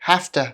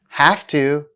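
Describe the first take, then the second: First: The words are blended into a reduced form. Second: Both words are said fully and separately.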